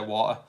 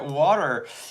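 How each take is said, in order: First: It is said British, the t dropped. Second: It is said in an American accent. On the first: "we don't pronounce our T's sometimes, so we just say" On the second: "as you Americans would say"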